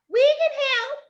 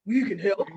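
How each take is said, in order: First: Very high squealed offer; high girlish shout; girls yelling. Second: Low put-on boy voice; deep boyish mock call; boys yelling. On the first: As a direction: squeal it like eager little girls. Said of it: "the girls yelled out". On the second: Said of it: "the boys yelled out". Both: A narrator's reading.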